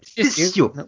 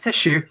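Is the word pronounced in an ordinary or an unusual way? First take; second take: unusual; ordinary. First: The word is pronounced in an odd way. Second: The word is pronounced in the usual way. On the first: This imitates how the character says it. "but tissue!" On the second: This is how most people say it. "Not tissue, like any normal person"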